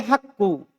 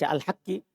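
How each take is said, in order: First: The word ends with a u vowel. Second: The word ends with an i vowel. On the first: The word is the subject of the verb. "tapi kalau saya baca al-haqqu" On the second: The word describes or renames the one before it. "Kalau begitu dibaca al-haqqi"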